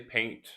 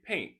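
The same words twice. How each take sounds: First: The word is said slowly and carefully. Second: The word is said quickly and casually. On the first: "It is okay to say paint" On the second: "if you speak quickly, sometimes you can say paint"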